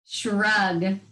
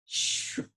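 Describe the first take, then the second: First: Said in the usual way. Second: "Shrug" whispered with a long drawn "sh"; stretched sounds. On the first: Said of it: "You shrug your shoulders". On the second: Shown as a demonstration. Teacher stretching the word on the coaster ride. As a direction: hold the "sh" of "Shrug" long and soft. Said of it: "Do that one again. That's a longer one".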